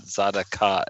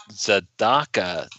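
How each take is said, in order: First: Tzedakah as TZAH-da-KAH, middle syllable unstressed; mispronounced Tzedakah. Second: Tzedakah as tze-DAH-kah, middle syllable stressed, slow; stress on the Dalet. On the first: Husband showing how not to say it, Tzedakah stressed off the Dalet. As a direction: say Tzedakah with weight on the outer syllables, none on DA. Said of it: "not Tzedakah". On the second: Husband giving the corrected Hebrew word, Tzedakah stressed slowly on DAH. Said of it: "the emphasis is on the Dalet". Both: Shown as a demonstration.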